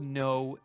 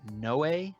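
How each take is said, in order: First: The name ends without a final vowel sound. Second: The name ends with a pronounced final vowel. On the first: "I'm going to go with No" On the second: "there's an accent on the E, which would make me want to pronounce it Noe"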